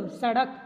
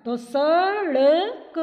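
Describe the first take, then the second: First: Said in the usual way. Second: सड़क drawn out slowly, loud, flapped ड़. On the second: Shown as a demonstration. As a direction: stretch सड़क, flick the ड़. (सड़क को धीरे, ज़ोर से, ड़ उछालकर) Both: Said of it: "हम इसको क्या बोलते हैं".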